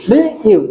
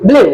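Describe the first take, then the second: First: ব্লু cut short, gap, then ইউ; separate sounds. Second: Said in the usual way. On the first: Shown as a demonstration. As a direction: break ব্লু apart before its ইউ glide. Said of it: "কিন্তু আলাদা". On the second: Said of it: "এটা কিন্তু একটা সিল".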